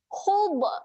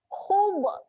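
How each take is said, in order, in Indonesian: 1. Konsonan terakhir dilepaskan dengan lantunan. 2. Konsonan terakhir dilepaskan dengan lantunan.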